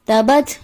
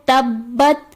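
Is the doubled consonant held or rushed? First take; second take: rushed; held. First: The doubled consonant is rushed and not held. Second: The doubled consonant is clearly held and doubled. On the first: The speaker calls it wrong. "जल्दी से पढ़ दिया जाता है ... जो कि दुरुस्त अदायगी नहीं" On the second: The speaker calls it right. "दुरुस्त अदायगी है"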